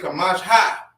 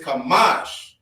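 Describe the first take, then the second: First: The word ends with an added 'ha' vowel sound. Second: The word ends on the 'sh' consonant sound. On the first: The speaker calls it wrong. "You wouldn't say Kamash ha" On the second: The speaker calls it right. "But it's Kamash"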